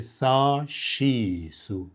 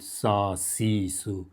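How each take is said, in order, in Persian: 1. هجای وسط با صدای sh شروع میشه. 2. هجای وسط با یک صدای s ساده شروع میشه. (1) "میشه" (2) "اشتباه نکنید بگید"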